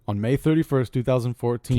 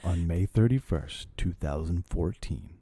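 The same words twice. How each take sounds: First: It is said in a normal voice. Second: It is said in a scary voice.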